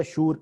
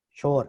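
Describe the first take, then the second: First: شور said with the Persian vowel; correct pronunciation. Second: شور said with a plain o as in Urdu; wrong pronunciation. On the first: Teacher giving student the Persian original reading. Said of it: "کوئی لفظ نہیں ہے شور". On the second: Teacher showing student the Urdu reading. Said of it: "اصل لفظ ہے شور". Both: Shown as a demonstration.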